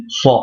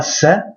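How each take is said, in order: First: "sa" with a thick, emphatic s and dark back a. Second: Said in the usual way. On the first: Shown as a demonstration. Teacher contrasting plain and emphatic: heavy "sa". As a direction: make the "sa" heavy and emphatic, like the Arabic sad. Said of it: "C'est le signe emphatique". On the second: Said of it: "On dit pas sa".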